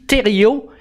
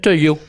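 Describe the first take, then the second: First: The name is said fully with effortful articulation. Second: The name is reduced to two relaxed syllables. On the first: It is the standard way of saying it. "imaginez toute la gymnastique que ça exige de mon facial" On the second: It is the relaxed local way of saying it. "il y a juste les lèvres qui ressortent"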